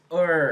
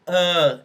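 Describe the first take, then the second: First: The long central vowel has r-coloring. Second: The long central vowel has no r-coloring. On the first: This is the North American English form. "long schwa in North American English is also represented with a er sound" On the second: This is the British English form. "It's not only uh as in British English"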